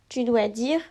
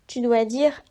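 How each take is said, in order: No difference in how they are said.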